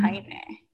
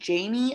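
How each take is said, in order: First: The name is said with a Spanish accent. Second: The name is said with an English accent.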